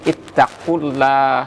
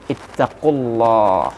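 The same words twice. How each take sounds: First: The l of Allah is light and thin. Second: The l of Allah is heavy and full. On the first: The speaker calls it wrong. "tidak mau nanti kita baca dengan ittaqullah ... kesalahan jali" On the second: The speaker calls it right. "lam jalalahnya itu dibawakan dengan berat"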